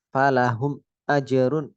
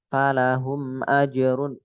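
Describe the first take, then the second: First: A short break separates the two words. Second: The two words run together without a break. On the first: The speaker calls it wrong. "Jadi kayak ada eh, jeda gitu" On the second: The speaker calls it right. "Harus sambung"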